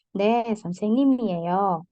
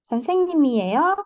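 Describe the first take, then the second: First: 네, 선생님이에요 with the pitch falling to the end; falling answer tune. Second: 선생님이에요 rising sharply at the end as a question; rising question tune. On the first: Teacher demonstrating the answer form, falling. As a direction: answer it, settling down. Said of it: "nadanya nurun". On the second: Teacher demonstrating the question form, high rising. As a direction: ask it, with the pitch climbing high. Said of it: "cuma nadanya tinggi, eh, menaik ya". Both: Shown as a demonstration.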